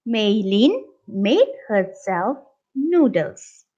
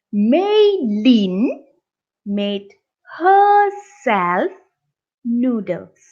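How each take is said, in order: First: No extra stress on Maylin or herself. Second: Extra stress on Maylin and on herself.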